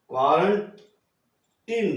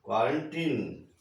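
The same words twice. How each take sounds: First: "क्वारंटीन" stretched very slowly, final syllable a long ee; slow model word. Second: Said in the usual way. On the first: Shown as a demonstration. Teacher modelling quarantine for children, very slow. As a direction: draw out "क्वारंटीन" slowly, leaning on the long ee at the end. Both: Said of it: "बड़ी ई की ध्वनि निकलेगी".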